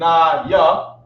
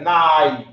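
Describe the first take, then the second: First: Two separate syllables are said, na then ya. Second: The two sounds are merged into one syllable. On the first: "Instead of saying na ya" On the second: "I connected them"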